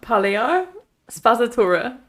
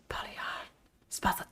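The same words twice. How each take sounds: First: It is spoken in a normal voice. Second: It is spoken in a whisper.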